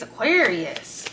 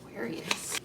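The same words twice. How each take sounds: First: Drawn out name. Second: Said in the usual way. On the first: Shown as a demonstration. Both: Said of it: "Like that face?".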